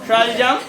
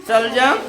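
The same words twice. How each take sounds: Both takes have the same delivery.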